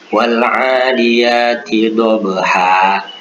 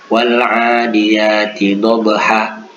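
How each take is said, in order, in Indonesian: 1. Vokal akhirnya ditahan selama dua harakat. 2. Vokal akhirnya dipotong menjadi satu harakat. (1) "Yang benar adalah dua harakat" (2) "jangan juga satu harakat. ... itu juga salah"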